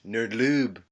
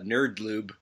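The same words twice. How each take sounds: First: It is said in a French accent. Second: It is said in a plain English accent.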